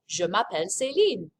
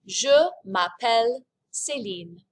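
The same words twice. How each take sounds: First: Said in the usual way. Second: "Je m'appelle Céline" said slowly and clearly; slow model phrase. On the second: Shown as a demonstration. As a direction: model the sentence slowly for repeating.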